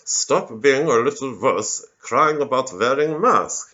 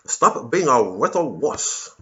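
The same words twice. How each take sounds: First: Put-on slow, heavy German-tinged Kissinger accent with "wearing" said like "vearing"; mocking German accent of an old statesman, drawn out; Henry Kissinger accent. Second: Hammed-up communist scolding, drawn out slow. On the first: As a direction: scold slowly in a Kissinger-style German accent. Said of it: "with the Henry Kissinger accent as well". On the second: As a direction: sneer it like a lightly voiced Soviet commissar. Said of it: "that voice 'cause it's a communist voice".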